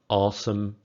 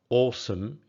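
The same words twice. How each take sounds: First: It has an American accent. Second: It has a British accent. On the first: "in American English" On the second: "pronounced in British English"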